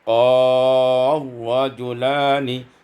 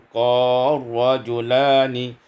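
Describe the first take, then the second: No difference in how they are said.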